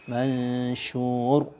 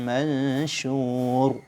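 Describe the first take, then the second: Both takes have the same delivery.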